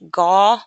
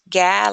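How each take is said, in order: First: The vowel is the open aw sound. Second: The vowel is the short a sound. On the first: "like in law" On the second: "like in gap"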